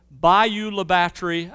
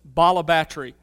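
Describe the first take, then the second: First: Said in the usual way. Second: "Bala Batre", Bayou La Batre run together as locals say it; local pronunciation. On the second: Retold or imitated. Preacher quoting the locals' name for the town, squashed into "Bala Batre". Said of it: "known by the locals as".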